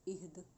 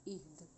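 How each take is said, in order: The two takes are said the same way.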